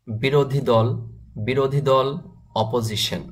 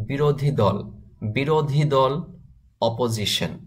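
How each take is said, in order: Both takes have the same delivery.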